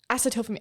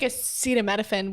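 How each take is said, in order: First: The word is said as aceto-pha-mine. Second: The word is said as aceta-mino-phen. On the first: The speaker calls it wrong. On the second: The speaker calls it right.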